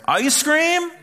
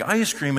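First: Very high, loud eager question; excited kid. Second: Said in the usual way. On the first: Acted. Kids in the other room suddenly hearing ice cream, excited yell. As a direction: shoot way up in eager surprise.

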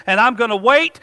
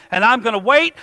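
The two takes are said the same way.

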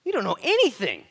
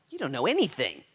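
First: High, very loud "anything"; full-force exclamation falling on "anything"; emphatic rebuke. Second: Raised, loud stress on "anything"; first, more contained take of an emphatic "anything"; firm rebuke. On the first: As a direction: shout it, hitting "anything" hard. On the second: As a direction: push "anything" up, then let it fall. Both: Acted. Preacher repeats rebuke, escalating.

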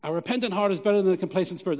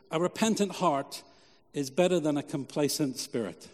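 First: "A repentant heart is better than a complacent spirit" run together fast with no pause; quick restatement. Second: "A repentant heart" and "is better than a complacent spirit" said slowly with a pause between the halves; slow emphatic statement. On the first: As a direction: rattle the point off quickly as a recap. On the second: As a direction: lay the point down slowly, stressing "repentant" and "better". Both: Shown as a demonstration. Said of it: "repeated as a key point".

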